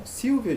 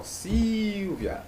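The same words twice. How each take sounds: First: Said in the usual way. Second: Silvia with a long, high first syllable; stress on SIL. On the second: Shown as a demonstration. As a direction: stretch and raise the Sil in Silvia. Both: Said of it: "qual é a sílaba tônica".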